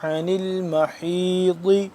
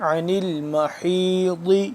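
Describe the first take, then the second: Both takes have the same delivery.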